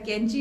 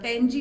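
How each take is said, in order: First: It begins with a plain 'k' sound. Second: It begins with a deep back-of-throat 'q' sound. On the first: The speaker calls it wrong. "कैंची नहीं होता" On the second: The speaker calls it right. "कैंची होता है"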